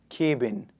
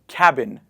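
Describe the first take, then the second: First: The first syllable does not sound like 'cab'. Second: The first syllable sounds like 'cab'. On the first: The speaker calls it wrong. "not cabin" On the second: The speaker calls it right. "We say cabin"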